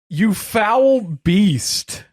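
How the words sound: It is said in a put-on character voice.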